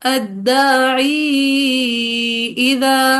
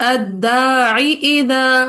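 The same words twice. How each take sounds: First: The long vowel is held a medium length. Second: The long vowel before the pause is dropped. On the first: "फिर तवसुत के साथ" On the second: "एक हजफ के साथ"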